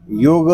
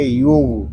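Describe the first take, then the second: First: "युग" with an extra short vowel after the ghain; wrong bounced ending. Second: "युग" closed on a full ghain, no vowel after; still full ghain. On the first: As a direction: bounce the last consonant of "युग" into uh. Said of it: "इस तरह नहीं पढ़ेंगे". ("युग" के आख़िरी ग़ैन को झटका देकर) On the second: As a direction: end "युग" on a still, throaty gh. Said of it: "इसको सुकून के साथ अदा". ("युग" का ग़ैन पुर और सुकून के साथ) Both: Shown as a demonstration.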